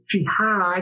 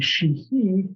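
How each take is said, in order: First: The name ends with a drawn-out 'eye' sound. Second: The name ends with an 'ee' sound. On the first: This is the southern Missouri pronunciation. "kind of drew it out" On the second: This is the Irish pronunciation. "the Irish pronunciation would be"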